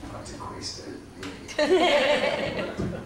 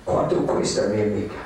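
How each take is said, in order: First: Spanish line drawn out slowly, ending high through laughter; laughing Spanish pickup line. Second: Put-on low, in Spanish with a Mexican accent; Spanish pickup line. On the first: Retold or imitated. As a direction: stretch the Spanish words out slow and crack up at the end. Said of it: "That's how you get drugs or a date in Mexico". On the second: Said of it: "That means, "How much, my lady?".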